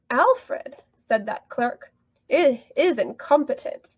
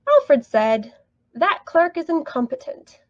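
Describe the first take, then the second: First: Pauses set off 'said that clerk' in the middle. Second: The pause comes after 'said', not after 'Alfred'. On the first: The clerk is the one speaking. "If it was B, that clerk" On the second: Alfred is the one speaking. "If it was A, Alfred"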